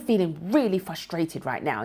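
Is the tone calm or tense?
tense. The voice sounds tense and strained. The feeling seems threatening and upsetting. The speaker calls it wrong. "a different tone ... your tone's changed"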